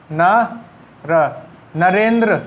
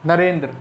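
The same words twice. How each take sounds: First: Narendra stretched out slowly, syllable by syllable; slow dictation. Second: Said in the usual way. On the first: Shown as a demonstration. Teacher writing Narendra on the board for students, slowly drawn out. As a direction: draw out Narendra slowly as you write it. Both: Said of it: "Narendra किस तरीके से लिखना है".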